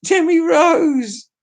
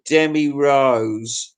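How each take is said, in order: First: Demi Rose shrieked high and slow through laughter; laughing exclaim. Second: Said in the usual way. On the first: Shown as a demonstration.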